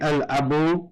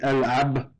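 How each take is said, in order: First: The word ends with a final vowel. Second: The word ends without a final vowel. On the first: This keeps the poem's meter. "we're going to say al-abu in order to keep the measure in the rhyme" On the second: This is the normal way to stop on a word. "when we stop, we would say al-ab with a sukoon right there"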